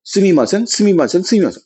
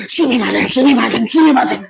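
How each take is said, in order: First: Said in the usual way. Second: Higher, effusive repeated apology climbing in pitch; acted apology. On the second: Shown as a demonstration. Teacher showing how to really say sorry in Japanese, effusive apology. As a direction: apologize over and over as if meaning it. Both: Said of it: "아니야!".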